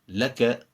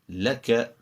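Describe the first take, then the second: Both takes have the same delivery.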